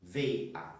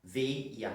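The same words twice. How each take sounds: First: Veia said as two clean syllables, ve-a; split syllables. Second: Veia said with an added i glide, vei-a. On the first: Teacher showing students careful ve-a. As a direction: keep the vowels of veia apart, no glide. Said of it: "Dificilmente nós falamos veia". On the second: Teacher showing students natural vei-a. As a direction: let an i slip in after the e of veia. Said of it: "Nós colocamos mais um i ali". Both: Shown as a demonstration.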